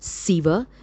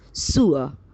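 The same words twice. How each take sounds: First: The word is said with the common mispronunciation. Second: The word is said with the standard pronunciation. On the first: The speaker calls it wrong. "It is not sewer" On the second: The speaker calls it right. "its pronunciation is sewer"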